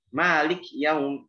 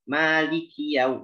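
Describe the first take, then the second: First: The k has no vowel after it. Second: The k is followed by an 'i' vowel. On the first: The speaker calls it wrong. "Kafnya jadi uh, sukun" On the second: The speaker calls it right. "jelaskan uh, kasrah pada kaf"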